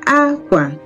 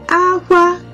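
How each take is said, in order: First: The pitch starts high, then goes low. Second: Both syllables are on a high pitch. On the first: It means cloth. "High, low" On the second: It means cry. "it's high all through"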